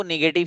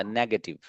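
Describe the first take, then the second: First: नेगेटिव with the weight on the middle syllable; common mispronunciation. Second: नेगेटिव said as NEG-uh-tiv; नेगेटिव with a short, weak middle syllable; correct pronunciation. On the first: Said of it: "अमूमन आप इसको नेगेटिव ही पढ़ते हैं". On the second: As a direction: stress the first syllable of नेगेटिव. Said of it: "[name] ने बहुत सही पढ़ा". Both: Shown as a demonstration.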